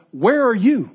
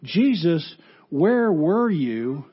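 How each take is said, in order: First: You lifted higher and louder; Jesus turning it back on Martha, you stressed. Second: Where were you asked slowly; Martha's slow question to Jesus. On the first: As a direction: punch the word you. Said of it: "Jesus turns it around and says". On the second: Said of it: "Martha comes to Jesus asking". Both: Acted.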